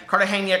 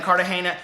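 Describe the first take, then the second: First: "Cartagena" ending in "-nya"; NY glide pronunciation. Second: "Cartagena" ending in a plain "-na"; plain N pronunciation. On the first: Correcting herself while reading a blurb, "Cartagena" with an NY glide. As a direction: say "Cartagena" as car-ta-HAY-nya. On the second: Reading a book blurb aloud, "Cartagena" with a plain N. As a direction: say "Cartagena" as car-ta-HAY-na. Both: Real, not acted. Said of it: "Cartagena, Colombia".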